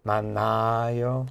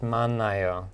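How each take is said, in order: First: The vowel before 요 is long. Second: The vowel before 요 is short. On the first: The speaker calls it wrong. "It's not the long" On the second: The speaker calls it right. "so it's just"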